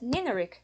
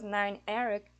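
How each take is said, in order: First: It is said as one blended word. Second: It is said as two separate words. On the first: The speaker calls it right. "you pronounce it as Nineric" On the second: The speaker calls it wrong. "you don't pronounce it as nine Eric"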